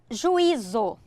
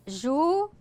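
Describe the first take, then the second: First: Said in the usual way. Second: "Juízo" broken into three pieces with pauses; syllable by syllable. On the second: Shown as a demonstration. Teacher dividing an example word into syllables, syllable by syllable. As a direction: sound out "Juízo" as separate, spaced syllables.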